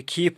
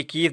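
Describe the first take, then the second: First: کیف said as کھیف with a breathy k; aspirated kaf. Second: Said in the usual way. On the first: Shown as a demonstration. Teacher showing pupils how کیف is read. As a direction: push a puff of air after the k in کیف. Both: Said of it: "اس کو کیف پڑھتے ہیں ہم".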